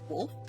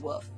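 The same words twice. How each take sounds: First: The L sound is clearly pronounced. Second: The L is dropped, sounding like woof. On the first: "we have an L in it. It actually comes out most of the time" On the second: "as in like the barking noise"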